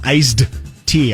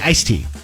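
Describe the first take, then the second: First: A D sound is heard before 'tea'. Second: No D sound is heard before 'tea'. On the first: "I don't say I'd like some iced tea" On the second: "I don't use that D at all"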